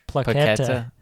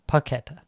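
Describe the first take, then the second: First: The name is said with an added L sound. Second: The name is said with no L sound. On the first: The speaker calls it wrong. "I don't know why I said Paqueta" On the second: The speaker calls it right. "There's no L in"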